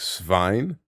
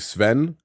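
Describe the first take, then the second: First: The vowel glides like 'ay'. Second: The vowel is a plain short 'e'. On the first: The speaker calls it right. "it's meant to be something like Svein" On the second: The speaker calls it wrong. "like I was saying Sven"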